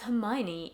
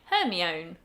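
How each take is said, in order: First: The name is said the usual spoken way. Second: The name is sounded out as it is written. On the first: Someone who knew the name corrected it. The speaker calls it right. "it's Hermione" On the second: The speaker had only ever read the name. The speaker calls it wrong. "I've never heard the name Hermione"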